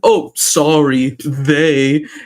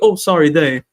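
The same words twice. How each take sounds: First: The words carry a pointed, marked intonation. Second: The words are said plainly, without marked intonation. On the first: The speaker is drawing attention to the correction. The speaker calls it wrong. "and my daughter, she" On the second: The correction is made without drawing attention to it. The speaker calls it right. "can you not put the intonation there?"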